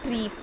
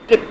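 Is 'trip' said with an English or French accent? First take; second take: French; English. First: Trip is said with a French-sounding accent. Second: Trip is said with a native English accent. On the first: The speaker calls it wrong. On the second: The speaker calls it right.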